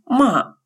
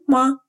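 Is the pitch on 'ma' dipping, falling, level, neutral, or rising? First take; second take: falling; neutral. First: The pitch falls sharply from high to low. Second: The syllable is short, light and unstressed. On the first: It means to scold. "с четвертым тоном «ма» означает «ругать»" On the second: It is a question particle. "с легким нулевым тоном «ма»"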